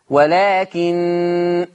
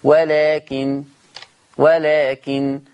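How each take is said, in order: First: ولكن stopped on a long nasal hum of the doubled nun; very slow ولكن ending in ghunna; Hafs pause. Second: ولكن stopped on a light nun with no nasal hold; slow ولكن, nun short and clipped at the stop; Warsh pause. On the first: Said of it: "لما أقف فيه غنة". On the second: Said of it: "النون مخففة بس ما فيش غنة". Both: Shown as a demonstration.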